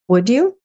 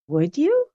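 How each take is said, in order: First: It sounds like a plain, neutral question. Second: It sounds surprised, like learning something new.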